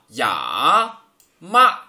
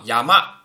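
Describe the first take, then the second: First: Each syllable is said separately with breaks. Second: The syllables are joined smoothly without breaks.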